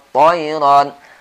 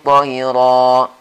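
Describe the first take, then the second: First: The word ends with a clear n sound. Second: The word ends on a vowel without n. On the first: The reading continues into the next word. "Di sini tanwinnya dibaca lengkap ya" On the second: The reader stops at this word. "Tapi kalau kita berhenti baru dibaca satu saja"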